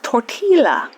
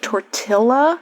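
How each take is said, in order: First: It is said with a Y sound, not L. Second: It is said as spelled, with an L sound. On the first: "it's pronounced tortilla" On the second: "it looks like tortilla"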